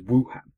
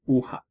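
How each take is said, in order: First: The opening W sound is strongly emphasized. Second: The opening W sound is light and unemphasized. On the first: The speaker calls it wrong. "anybody who's never learned to read pinyin would read the pronunciation of the city as Wuhan" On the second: The speaker calls it right. "you don't really emphasize the beginning of the W"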